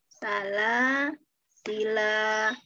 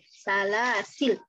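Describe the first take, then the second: First: The word ends with a lengthened final vowel. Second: The word ends on the consonant l. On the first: "alifnya kita pakai" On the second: "huruf lamnya jadi sukun"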